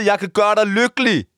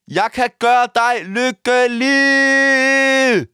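First: Earnest declaration. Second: Sung, very slow, high, held-out final note; sung, belt it out like a love ballad; sung, belted declaration. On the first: Declaration to radio host, first take. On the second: Declaration repeated as held notes. (sung, langtrukken, skrålende kærlighedserklæring) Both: Pretend.

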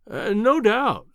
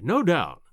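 First: Humoring. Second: Soothing, indulgent no doubt; humoring an imbecile. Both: A narrator's reading. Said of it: "as one humors an imbecile".

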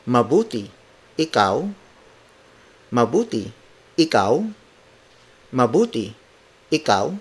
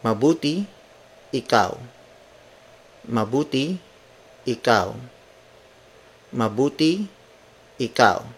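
First: Mabuti falls, then ikaw rises as a question; reply intonation. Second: Said in the usual way. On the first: Shown as a demonstration. Teacher modelling the reply with its return question. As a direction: drop on Mabuti and lift on ikaw. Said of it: "Now let's apply the intonations". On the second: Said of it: "The second sentence is".

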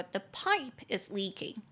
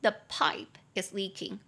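First: Said in the usual way. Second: Slower model repeat. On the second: Shown as a demonstration. Teacher repeats the sentence slowly for students to copy. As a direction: say it again slowly and clearly. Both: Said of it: "你就可以说".

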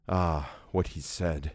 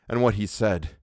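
First: Slow, softer, lower, as if haunted by the memory; hushed ominous echo. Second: Said in the usual way. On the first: A narrator's reading. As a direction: let the words sink, slowly and quietly. Narrator echoes the words ominously.

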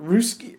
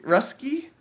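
First: Ruski with an "oo" sound, ROO-skee; trying a pronunciation. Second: Rusky with a short "uh", RUS-kee, asked with a questioning rise; Rusky pronounced RUSS-kee, tentative; trying a pronunciation. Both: Shown as a demonstration. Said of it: "What would you say?".

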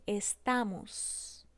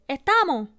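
First: Estamos drawn out slowly, final s sounded; clear final s. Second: Estamos said as estamo; estamos, cut the s off; dropped s. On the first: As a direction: stretch estamos and hiss the s. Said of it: "en vez de decir". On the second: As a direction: estamo sin s. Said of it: "cuando necesitan la S, se la quitamos". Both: Shown as a demonstration.

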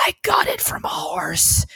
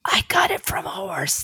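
First: Confiding whisper, slowed down. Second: Whispered, pitched up high; triumphant whisper. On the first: Retold or imitated. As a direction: lean in and whisper it slowly. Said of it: "I leaned over and said". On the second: Shown as a demonstration. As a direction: lean in and whisper the tagline. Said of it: "But you have to whisper it".

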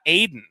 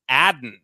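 First: Aiden with a long A as in "aid", AY-den; Aiden, first syllable like "aid"; wrong pronunciation. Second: Adden with a short A as in "add", AD-den; Adden, first syllable rhymes with "bad"; correct pronunciation. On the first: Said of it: "His name is not Aiden". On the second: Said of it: "So it's Adden Dirty is his name". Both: Shown as a demonstration.

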